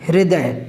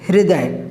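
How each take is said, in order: Both takes have the same delivery.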